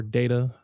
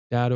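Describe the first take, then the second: First: "data" with a long a, as in "day"; "data" starting like the word "day"; alternate pronunciation. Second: "data" with a short a, as in "dad"; "data" rhyming roughly with "matter"; alternate pronunciation. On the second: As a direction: say "data" as DAT-uh. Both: Shown as a demonstration. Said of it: "however your favorite way to say it".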